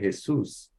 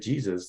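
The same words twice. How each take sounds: First: The name is said with Spanish pronunciation. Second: The name is said with English pronunciation. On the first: "they say Jesus" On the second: "in Spain they don't say Jesus"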